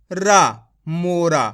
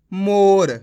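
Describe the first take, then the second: First: मोरा with the last रा said in full, a long "ra" at the end; wrong pronunciation. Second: मोर with the last र cut short, said as "mor" with no final a; correct pronunciation. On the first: Hindi teacher demonstrating the common mistake: a full रा in मोरा. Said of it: "तो ये तो गलत हो गया". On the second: Hindi teacher showing students the right way: मोर ending short on र. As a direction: say मोर clipping the final र, no trailing vowel. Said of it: "आधा करते हैं". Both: Shown as a demonstration.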